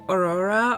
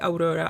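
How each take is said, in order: First: The name is said with an English pronunciation. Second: The name is said with a non-English pronunciation. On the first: The speaker calls it wrong. "in English you you pronounce it like Aurora" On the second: The speaker calls it right. "I'm gonna say Aurora"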